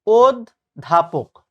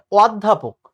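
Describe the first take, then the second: First: অধ্যাপক slowly as "od ... dhapok", closed o; correct pronunciation. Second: অধ্যাপক slowly with open vowel, "awd-dhapok"; wrong pronunciation. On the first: Teacher giving students the standard form, slow correct অধ্যাপক as "od-dhapok". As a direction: split অধ্যাপক after a rounded "od". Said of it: "প্রমিত উচ্চারণ হচ্ছে". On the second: Teacher rejecting the common error, slow wrong অধ্যাপক as "awd-dhapok". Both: Shown as a demonstration.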